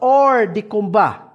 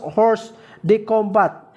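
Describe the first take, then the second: First: The first word starts without an h sound. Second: The first word starts with an h sound. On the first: The speaker calls it right. "this is pronounced as or de combat" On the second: The speaker calls it wrong. "This is not pronounced as horse de combat"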